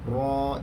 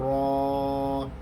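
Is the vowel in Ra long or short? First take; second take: short; long. First: The vowel is held for only two beats. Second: The vowel is drawn out long. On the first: The speaker calls it right. "Dia hanya dibaca dengan bacaan dua harakat sahaja" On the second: The speaker calls it wrong.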